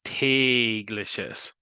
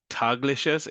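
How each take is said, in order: First: The first vowel is a long a sound. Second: The first vowel is a plain a sound. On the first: The speaker calls it right. "that gets a long A sound" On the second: The speaker calls it wrong. "instead of"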